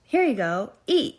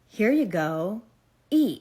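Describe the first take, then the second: First: It is said in an ordinary voice. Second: It is said in a deep, eerie voice.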